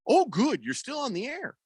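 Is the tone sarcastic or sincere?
sincere. It sounds sincere and genuinely pleased.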